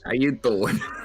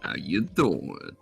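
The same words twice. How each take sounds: First: It is said in a fairly plain way. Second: It is said in a more flirtatious way.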